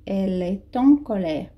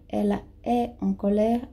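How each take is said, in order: First: "Elle est en colère" with the T of "est" sounded and linked into "en", as "è-ten"; liaison with T. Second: "Ela é en colère" with no T sound, "é" run straight into "en"; no liaison. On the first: Teacher shows students the correct liaison from T to vowel. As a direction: join the T of "est" onto "en". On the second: Teacher shows students the wrong form without liaison. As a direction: say "é en" with no T linking the words. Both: Shown as a demonstration. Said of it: "Fazendo a liaison do T com".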